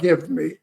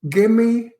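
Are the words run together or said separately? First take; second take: separate; run together. First: The two words are said separately and fully. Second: The two words are run together as one. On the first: It does not sound like a New York tough guy. The speaker calls it wrong. "not give me" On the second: It sounds like a New York tough guy. The speaker calls it right. "gimme, not give me, it's gimme"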